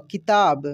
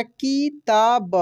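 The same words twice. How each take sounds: First: Said in the usual way. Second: किताब broken into ki, taa, ba; syllable by syllable. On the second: Shown as a demonstration. Teacher spelling for learners, किताब syllable by syllable. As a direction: sound out each syllable of किताब. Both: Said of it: "छोटी की मात्रा भी बोलकर".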